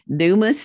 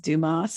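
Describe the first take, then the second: First: The name is said the Southern US way. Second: The name is said the French way.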